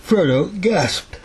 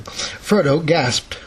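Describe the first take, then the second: First: Words stretched through a yawn. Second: Said in the usual way. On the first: Real, not acted. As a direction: read it mid-yawn, drowsy. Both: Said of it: "I'm yawning".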